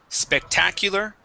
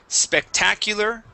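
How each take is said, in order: Both takes have the same delivery.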